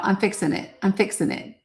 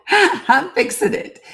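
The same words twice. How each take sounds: First: Said in the usual way. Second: High, slowed, laughing through the words; flustered laugh while fixing the stream. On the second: Real, not acted. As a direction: laugh it out in embarrassment. Laughing at own tech trouble.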